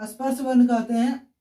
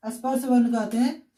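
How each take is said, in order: Both takes have the same delivery.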